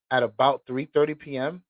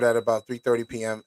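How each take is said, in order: First: "three thirty P M" rising into a question; questioning double-check. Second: Said in the usual way. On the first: Real, not acted. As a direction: query the time, lifting the end of "P M". Rereading the time in doubt.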